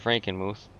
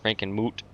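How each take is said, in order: First: The name ends with a 'th' sound. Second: The name ends with a plain 't' sound. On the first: The speaker calls it wrong. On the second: The speaker calls it right.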